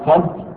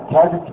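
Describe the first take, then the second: First: "كذب" as one syllable, kidhb; short i after the kaf in "كذب", no vowel before the b; "كذب" pronounced kidhb; kasra on kaf. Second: "كذب" as one syllable, kadhb; "كذب" pronounced kadhb; fatha, silent middle vowel. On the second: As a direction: open a after the kaf in "كذب", no vowel before the b. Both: Shown as a demonstration. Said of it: "مع إبقاء فتح الكاف وكسرها".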